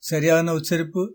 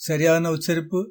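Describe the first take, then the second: The two takes are said the same way.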